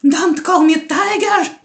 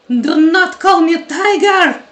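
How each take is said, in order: First: It is said with mild anger. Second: It is said with stronger anger.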